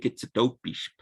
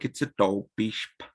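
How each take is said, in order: First: The vowel is a plain o sound. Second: The vowel is an aw-like sound. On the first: The speaker calls it wrong. "it sounds a little bit um, unnatural" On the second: The speaker calls it right. "kind of makes a weird all sound"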